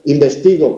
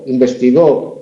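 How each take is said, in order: First: The stress is on the second-to-last syllable. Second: The stress is on the last syllable. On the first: I investigate, in the present. "primera persona, yo" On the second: He or she investigated, in the past. "es un pasado y la tercera persona"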